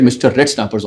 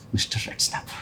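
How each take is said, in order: First: Said in the usual way. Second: Hushed, voiceless whisper; whispered to himself. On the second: Acted. Interviewee privately repeating the boss's odd name, whispered. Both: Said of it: "I thought to myself".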